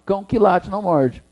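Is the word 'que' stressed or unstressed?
unstressed. The word que is weak and unstressed. The speaker calls it right. "Sem acento"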